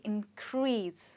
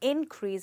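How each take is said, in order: First: The stress is on the second syllable. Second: The stress is on the first syllable. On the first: It is a verb meaning to rise. "हम इसमें focus करेंगे second part पे" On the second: It is a noun meaning a rise. "यहाँ पे हमने इन पे focus किया"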